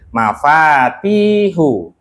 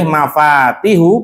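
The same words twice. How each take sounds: First: The middle vowel is held long. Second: The middle vowel is held short. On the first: "ada panjang" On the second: "ada yang pendek"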